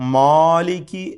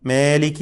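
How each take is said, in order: First: The long first vowel is thick and heavy. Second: The long first vowel is stretched toward e. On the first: "അലിഫിനെ പെരുപ്പിച്ചുകൊണ്ട് തഫ്ഹീം ചെയ്തുകൊണ്ട് ചിലർ പറയും. അതും തെറ്റാണ്" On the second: "മേ എന്ന് വല്ലാതെ ഏകാരം നൽകിക്കൊണ്ട് നീട്ടാനും പാടില്ല. മേലിക്കി അല്ല"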